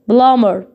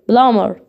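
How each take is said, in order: Both takes have the same delivery.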